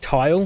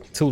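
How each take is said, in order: First: The vowel is long, like in 'tile'. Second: The vowel is short, like in 'till'. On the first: This is how the game itself says it. "Now it's um, it's Tile" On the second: This is how the group used to say it. "we had always pronounced it Till Till Rigor"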